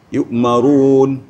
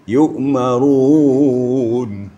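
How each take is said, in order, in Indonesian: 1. Vokal akhir ditahan selama satu ketukan. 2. Vokal akhir ditahan selama dua ketukan. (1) "Umpamanya nafas kita tidak memadai, boleh yu'marun gitu aja" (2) "Umpamanya kita ingin melagu sedikit, dua alif"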